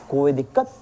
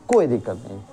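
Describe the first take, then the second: First: "कोई दिक्कत?" asked with a rising end; asking question. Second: "कोई दिक्कत नहीं" said low with a falling end; answering it. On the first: Teacher asks pupils "कोई दिक्कत?" with a rising question tune. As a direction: rise on "दिक्कत" as a check to the class. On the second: Teacher answers his own question "कोई दिक्कत नहीं" in a low falling tune. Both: Shown as a demonstration.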